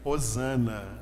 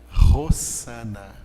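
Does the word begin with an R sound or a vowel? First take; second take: vowel; R sound. First: The word begins with a plain vowel sound. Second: The word begins with a rough R sound. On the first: The Portuguese-adapted form of the word. The speaker calls it wrong. "a pronúncia correta não seria Osana" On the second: The original Aramaic form of the word. The speaker calls it right. "ele é pronunciado como se fosse um R"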